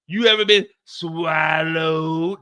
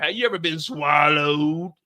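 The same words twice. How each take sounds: First: Drawn-out shouted question; slow loud call. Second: Said in the usual way. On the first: Shown as a demonstration. Comic shouting the question at the crowd. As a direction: stretch and shout it.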